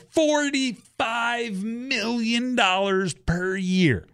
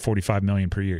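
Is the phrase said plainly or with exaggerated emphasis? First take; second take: emphatic; plain. First: The phrase is said with exaggerated, incredulous emphasis. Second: The phrase is said plainly, without special emphasis. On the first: The speaker calls it right. "You have to say" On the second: The speaker calls it wrong. "You can't just say"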